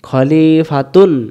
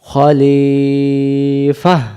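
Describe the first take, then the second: First: The word ends with a 'tun' sound. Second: The word ends with a soft 'ah' sound. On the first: The reading continues past the word. "যদি দম ফেলার জায়গা না থাকতো তখন এর উচ্চারণ হতো খলিফাতুন" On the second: The reader stops at this word. "গোলতাটাকে হা বানাই দেব।"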